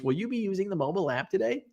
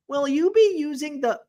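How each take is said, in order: First: Quick, even drive-thru robot prompt; lightly done automated greeting. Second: A first, high-pitched try at a robotic drive-thru voice; a hint of a kiosk voice; automated voice. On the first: Retold or imitated. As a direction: rattle it off like a canned recording. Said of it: "but it's an automated voice". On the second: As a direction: start the machine voice, then break off. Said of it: "It's an automated voice".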